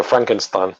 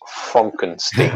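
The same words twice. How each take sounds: First: "Frankenstein" with FRANK and a final STINE; usual pronunciation. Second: "Frankenstein" drawn out as FRONK-en-steen; corrected pronunciation. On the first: Quoting someone addressing the film's doctor, "Frankenstein" said as FRANK-en-stine. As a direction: say "Frankenstein" the everyday way, rhyming the end with wine. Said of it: "No, no, no, it's Frankenstein". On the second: Doctor correcting how his name is said, "Frankenstein" as FRONK-en-steen. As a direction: say "Frankenstein" slowly with an O and an EEN ending. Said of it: "No, no, no, it's".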